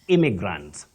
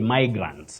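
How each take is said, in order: First: The first vowel is a short 'ih' sound. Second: The first vowel is an 'eye' sound. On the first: The speaker calls it right. "we don't say imai, we say imi" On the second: The speaker calls it wrong.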